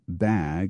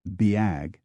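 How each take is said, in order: First: The vowel is a single plain sound. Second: The vowel glides from an ee-like sound.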